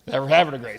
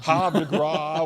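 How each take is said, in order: First: The last word is said the English way. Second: The last word is said the French way. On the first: This is how local people say it. "locals were all it's Havre de Grace" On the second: This follows the original language of the name. "the proper French pronunciation"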